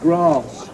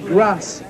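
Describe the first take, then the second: First: Grass is said in a non-Liverpool accent. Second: Grass is said in a Liverpool accent. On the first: "instead of grass" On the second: "the Liverpool accent, so the way you say some of the words. No, you say grass"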